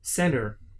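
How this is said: It is said with an American accent. "Americans say center"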